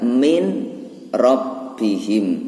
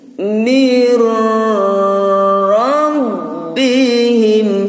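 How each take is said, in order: First: The n sound is heard before the r. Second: The n sound merges into the r. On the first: This is how it is written. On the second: This is how it must be recited. "Wajib bacanya gini"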